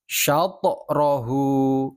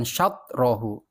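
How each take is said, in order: First: "Syatorahu" slow, the t bouncing into a light o, "sya-to-rahu". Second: "syatrohu" with the t shut straight into r, no bounce; wrong flat ta. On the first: Teacher models correct qalqalah for pupils, slow and bouncing. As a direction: let the t in "Syatorahu" rebound. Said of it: "Bukan syatrohu". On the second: Teacher shows pupils the wrong, unbounced reading. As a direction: close the t in "syatrohu" dead. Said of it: "Syatrohu itu salah". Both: Shown as a demonstration.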